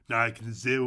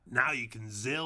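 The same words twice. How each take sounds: First: It is said in a Cockney accent. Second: It is said in a plain, non-Cockney accent. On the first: The speaker calls it right. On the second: The speaker calls it wrong.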